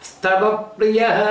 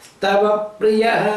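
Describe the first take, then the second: No difference in how they are said.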